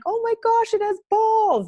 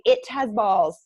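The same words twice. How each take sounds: First: High, loud shocked scream; mother screaming at birth, shocked loud shriek. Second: Said in the usual way. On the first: Retold or imitated. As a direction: shriek it in disbelief. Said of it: "That's what I screamed out". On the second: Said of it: "I say".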